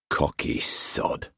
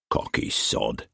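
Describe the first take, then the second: First: Whispered, slow thought; inner whisper. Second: Whispered under the breath; amused whisper. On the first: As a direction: breathe it to himself. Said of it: "He looked back at the dinghy". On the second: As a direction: mutter it in grudging amusement. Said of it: "amused in spite of himself". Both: A narrator's reading.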